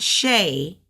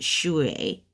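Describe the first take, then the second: First: The word ends with an 'ay' sound. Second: The word ends with a 'way' sound. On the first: The speaker calls it wrong. "Not shay" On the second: The speaker calls it right. "but shui"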